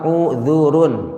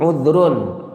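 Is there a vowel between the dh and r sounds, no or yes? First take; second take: yes; no. First: A vowel u is heard between dh and r. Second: No vowel is heard between dh and r. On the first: "dzalnya dhammah" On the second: "dzalnya dibaca sukun"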